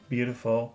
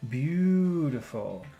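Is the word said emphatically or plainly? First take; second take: plainly; emphatically. First: The word is said plainly, without emphasis. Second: The word is said with strong emphasis. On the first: "Normal beautiful" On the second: "Focus beautiful"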